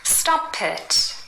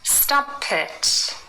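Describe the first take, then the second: First: The p runs into it, like Pitt. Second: The same.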